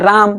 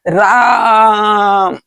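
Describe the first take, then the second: First: The word is said short and normal. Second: The vowel is drawn out long, like calling.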